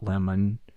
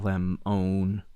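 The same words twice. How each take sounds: First: The second vowel is reduced, like ordinary lemon. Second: The second vowel is a full, long o sound. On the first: The speaker calls it wrong. "not lemon" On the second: The speaker calls it right. "pronounce the O as O"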